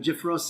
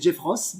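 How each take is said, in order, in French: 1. Le nom est prononcé avec un accent anglais. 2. Le nom est prononcé avec un accent français. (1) "j'essaie d'avoir un accent correct" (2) "normalement, c'est Jeff Ross"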